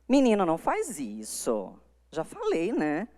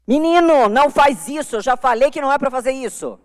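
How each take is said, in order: First: Soft, easy, almost chatting; a gentle half-serious telling-off; lighter scolding. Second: Much higher and louder, a parent's angry telling-off; irritated scolding. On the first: Parent mildly scolding a child, a much lighter tone. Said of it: "Esse tom é bem mais leve". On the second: Parent scolding a child, demo of an irritated tone. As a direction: scold the boy sharply. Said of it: "Esse tom é irritado". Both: Shown as a demonstration.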